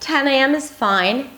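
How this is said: The voice rises at the end. The speaker sounds friendly and is still waiting for approval. "that rising, rising intonation ... makes it sound a little more friendly"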